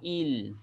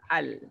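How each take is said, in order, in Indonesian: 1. Suku kata dimulai dengan vokal i. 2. Suku kata dimulai dengan vokal a. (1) "Tak boleh baca dengan baris bawah il" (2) "kita kena baca atas al"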